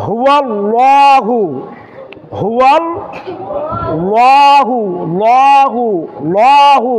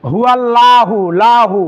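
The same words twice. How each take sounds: First: Slow, drawn হুয়াল্লাহু with heavy, rounded 'law'; correct thick lam. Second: হুয়াল্লাহু with a light, flat-tongued 'laa'; mistaken thin lam. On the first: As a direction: push out লাহু with a full, dark L. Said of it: "তাহলে সঠিকটা কি হবে". (হুয়াল্লাহু-র লাম মোটা করে, টেনে) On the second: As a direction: show লাহু with a thin L and open 'aa'. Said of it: "বেশিরভাগ অনেক সময় ভুল হয়ে যায়". (হুয়াল্লাহু-র লাম পাতলা করে) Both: Shown as a demonstration.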